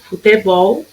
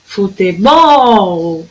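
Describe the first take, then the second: First: Said in the usual way. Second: Slow "Futebol", swelling on the final "bol"; stretched last syllable. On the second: Shown as a demonstration. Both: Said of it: "a sílaba tônica no final".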